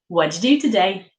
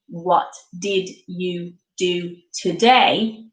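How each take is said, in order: First: The words are run together into one. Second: Each word is said separately and fully. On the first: The speaker calls it right. "we run our words together" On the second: The speaker calls it wrong. "makes me sound a little bit static and a little bit like a robot"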